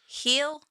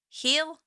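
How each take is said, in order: First: The vowel is long, like in 'heel'. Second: The vowel is long, like in 'heel'.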